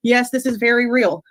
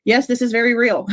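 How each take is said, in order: First: Said in the usual way. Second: Fast, giddy, through laughter; giddy laughing confirmation. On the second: Real, not acted. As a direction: laugh the words out in disbelief. Laughing in disbelief at news.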